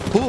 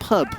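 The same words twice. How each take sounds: First: It is said in the speaker's own accent. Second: It is said in an imitated southern accent. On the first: The speaker calls it wrong. "You say you say pub" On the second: The speaker calls it right. "it should be like pub"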